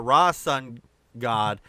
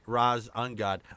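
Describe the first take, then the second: First: The name is split as Ra-sun-god. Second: The name is split as Raz-un-god. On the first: The speaker calls it right. "it was uh, Ra Sun God" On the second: The speaker calls it wrong. "not Ra un, Ra's Ungod. I do apologize. That's just the way I read it"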